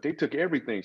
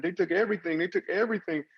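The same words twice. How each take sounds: First: Said in the usual way. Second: Imitating a crying woman. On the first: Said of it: "and she's like". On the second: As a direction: voice the neighbour's wife sobbing it out. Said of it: "And she's crying".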